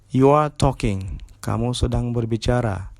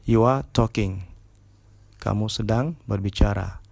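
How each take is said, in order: No difference in how they are said.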